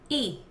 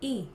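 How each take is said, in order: First: The glottal onset has effort level five. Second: The glottal onset has effort level three.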